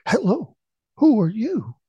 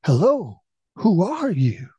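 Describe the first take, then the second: First: High, hooting echo of a call. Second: Raised, higher calling voice; loud exclamation. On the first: Mountain echo answers the startled boy, high echoing call. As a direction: throw the call back much higher, like an echo. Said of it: "the voice echoed back". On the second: Startled son calls out to an unknown voice, exclaiming loudly. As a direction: call it out into the valley. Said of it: "stood up and exclaimed loudly". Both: A narrator's reading.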